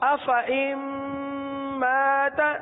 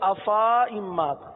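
First: The vowel after fa is kept short. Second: The vowel after fa is drawn out long. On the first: The speaker calls it right. "چونکہ گول دائرے کا نشان لگا ہوا ہے تو اب کس طرح پڑھیں گے؟" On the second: The speaker calls it wrong. "اگر گول دائرے کا نشان نہ ہوتا تو ہم پڑھتے"

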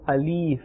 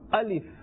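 First: The end of the word is drawn out. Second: The end of the word is kept short. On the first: The speaker calls it wrong. "they pull this letter towards the end" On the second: The speaker calls it right. "The correct pronunciation is Alif"

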